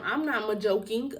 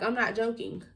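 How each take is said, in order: First: "ma-joking" with an added "ma" before joking; "ma-joking", an extra unstressed syllable ahead of joking. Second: Said in the usual way. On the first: Retold or imitated. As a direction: slowly say "ma-joking", slipping "ma" in front. Echoes odd word, then corrects it.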